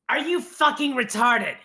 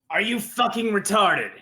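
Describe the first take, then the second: First: The voice is high, with more falsetto. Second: The voice is low, without falsetto. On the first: The speaker calls it right. "I want to hear more up here" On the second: The speaker calls it wrong. "you're down here"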